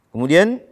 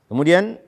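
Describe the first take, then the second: Both takes have the same delivery.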